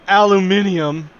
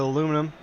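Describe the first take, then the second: First: It is said with five syllables, ending in -nium. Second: It is said with four syllables, ending in -num. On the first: The speaker calls it wrong. "Fuck the British" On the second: The speaker calls it right. "It's aluminum"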